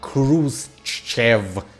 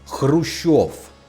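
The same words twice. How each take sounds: First: The name is said the English way. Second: The name is said the Russian way. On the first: The speaker calls it wrong. "his last name is not Khrushchev" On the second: The speaker calls it right. "it's Khrushchev"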